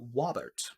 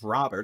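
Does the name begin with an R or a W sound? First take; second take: W; R. First: The name begins with a W sound. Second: The name begins with an R sound. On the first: The speaker calls it wrong. "say R's as W" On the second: The speaker calls it right. "instead of Robert"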